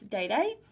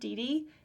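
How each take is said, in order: First: Each syllable has an 'ay' vowel sound. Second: Each syllable has an 'ee' vowel sound. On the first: The speaker calls it right. "it's Day Day" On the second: The speaker calls it wrong. "I've been told that it's not D D"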